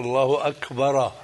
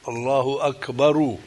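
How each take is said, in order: First: Akbar ends with a clear a vowel. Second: Akbar ends with a clear u vowel. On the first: "الفتحة" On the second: "الضم بتكون"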